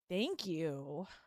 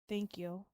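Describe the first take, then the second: First: It is said in a mocking, sarcastic tone. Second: It is said in a let-down, disappointed tone. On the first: The speaker is not actually grateful. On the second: The speaker expected something better. "And then disappointed"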